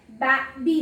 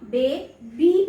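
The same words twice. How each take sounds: First: बे said as short "ba" as in bat, then बी; wrong reading of बे, बी with short A; short A mispronunciation. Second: बे, बी with an open long "ay" in बे. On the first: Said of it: "नहीं पढ़ा". (बे को छोटी "बै" आवाज़ में, फिर बी) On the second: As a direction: say बे as "bay", pause, then बी. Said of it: "long sound आती है". (बे में लंबी ए, फिर अलग से बी) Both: Shown as a demonstration.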